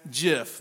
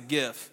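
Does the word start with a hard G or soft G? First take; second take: soft G; hard G. First: It begins with a soft 'j' sound. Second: It begins with a hard 'g' sound.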